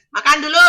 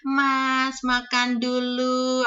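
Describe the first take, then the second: First: Keras dan tinggi, singkat menyuruh makan; gaya majikan di sini. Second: Tinggi dan pelan, menawarkan makan dengan sopan; tawaran makan ala Jawa. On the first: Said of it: "Itu orang sini ngomongnya". (menyuruh makan dengan keras dan tinggi, gaya majikan Cina) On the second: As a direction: lembut menawari, gaya basa-basi Jawa. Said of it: "kan monggo ngene". (menawari makan dengan sopan, pelan dan tinggi) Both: Retold or imitated.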